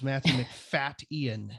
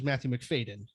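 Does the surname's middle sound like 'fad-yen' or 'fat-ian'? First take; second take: fat-ian; fad-yen. First: The surname's middle sounds like 'fat' then 'Ian'. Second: The surname's middle sounds like 'fad-yen', run together. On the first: The speaker calls it right. "It is Matthew McFat Ian. You heard that right" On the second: The speaker calls it wrong. "we always thought it was Matthew Macfadyen. It is not"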